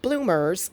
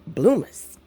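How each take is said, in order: First: Clear, standard "bloomers", as the word to reject; standard pronunciation. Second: "bloomers" said as "bloo-muhs", dropping the r; drawn-out "bloomers" without the final r; folksy pronunciation. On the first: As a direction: say "bloomers" with the r sounded. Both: Shown as a demonstration. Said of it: "Not bloomers, but bloomers".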